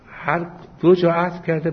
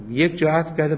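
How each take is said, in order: First: هر دو جا with دو hit hard and high; stress on both. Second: یک جا with یک hit hard and high; stress on one. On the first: Cleric contrasting verse readings for students, stress on دو. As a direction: punch دو in هر دو جا to mark the contrast. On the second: Cleric contrasting verse readings for students, stress on یک. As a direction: punch یک in یک جا against the other reading. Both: Shown as a demonstration.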